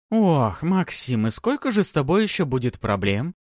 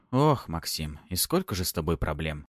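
First: Higher, louder mock repeat; lady mimicking. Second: Tired, resigned groan; weary sigh. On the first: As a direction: echo the assistant teasingly. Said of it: "повторила за своим помощником боярыня". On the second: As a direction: sigh out the complaint. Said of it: "устало вздохнул". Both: A narrator's reading.

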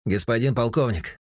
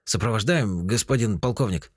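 First: Higher, worried operator voice; an excited radar operator; agitated. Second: Slightly confused. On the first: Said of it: "взволнованный голос". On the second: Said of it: "немного растерянно". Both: A narrator's reading.

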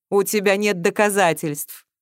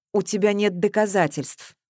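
First: Matter-of-fact, mildly emphatic denial; businesslike. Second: Controlled, firm repetition. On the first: Accused man answers the girl, businesslike. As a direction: state it in a businesslike way. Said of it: "деловито заметил". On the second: Accused man repeats his denial to the girl, firmly. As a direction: hold your ground without shouting. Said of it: "твёрдо повторил Кораблёв". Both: A narrator's reading.

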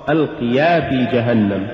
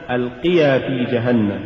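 First: ألقيا في جهنم with ألقيا broken in two; ألقيا said as two words, ألق and يا; wrongly split word. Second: Said in the usual way. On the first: Shown as a demonstration. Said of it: "فصل الكلمة". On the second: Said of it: "قل ألقيا في جهنم".

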